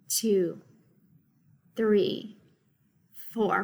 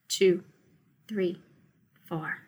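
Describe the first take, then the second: First: The counting is slower. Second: The counting is rather fast.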